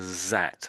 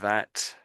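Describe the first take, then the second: First: The word begins with a buzzing 'z' sound. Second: The word begins with a soft 'th' sound. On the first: The speaker calls it wrong. "you made it a little bit like a Z there" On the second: The speaker calls it right. "So the first one I would say is"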